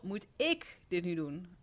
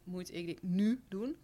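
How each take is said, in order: First: The stress falls on the word ik. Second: The stress falls on the word nu. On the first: Questions whether it is my responsibility. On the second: Questions whether it must be done right now.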